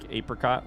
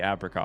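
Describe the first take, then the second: First: The first vowel is a long A, as in eight. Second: The first vowel is a short A, as in apple. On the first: "It's the long A, like apricot, like eight" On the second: "I have heard many people in my life say apricot"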